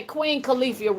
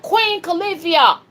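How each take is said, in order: First: Said in the usual way. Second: "Queen Califia" called out high and loud; showing the chat how loud to say it; shouted name. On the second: Shown as a demonstration. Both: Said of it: "real loud".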